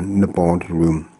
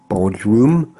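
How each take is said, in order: First: The name starts with an N sound. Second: The name starts without an N sound. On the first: "But I think I'll go with" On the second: "It could be with a silent N"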